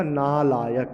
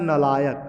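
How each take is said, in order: First: नालायक as "naa-laayak", first syllable held; long first vowel. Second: नालायक said "nalaayak", first syllable short; short first vowel. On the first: Teacher giving the correct word, long first vowel. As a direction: lengthen the "naa" that opens नालायक. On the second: Teacher reading the misspelt word, short first vowel. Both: Shown as a demonstration. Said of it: "शुद्ध रूप में क्या होगा".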